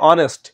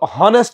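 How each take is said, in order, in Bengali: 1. শব্দটি স্বরধ্বনি দিয়ে শুরু হয়। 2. শব্দটি h ধ্বনি দিয়ে শুরু হয়। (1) "আমরা বলি অনেস্ট" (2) "হনেস্ট বলি না"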